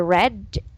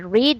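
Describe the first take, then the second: First: The vowel in read is short. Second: The vowel in read is long. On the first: The action happened in the past. "So if it was yesterday, I read the book" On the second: The action happens now or regularly. "So if it's present, we say I read a book"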